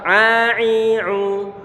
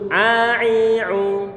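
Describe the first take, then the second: The two takes are said the same way.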